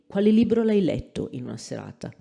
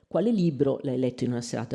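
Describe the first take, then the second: First: The main accent falls on the verb. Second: The main accent falls on the question phrase. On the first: The speaker calls it wrong. "with prominence on the verb is completely uh, unacceptable" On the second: The speaker calls it right. "the nuclear pitch accent necessarily goes on the W H element"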